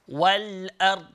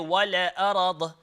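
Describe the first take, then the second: First: The l sound is held without a vowel. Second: An extra vowel follows the l sound. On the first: The speaker calls it right. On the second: The speaker calls it wrong.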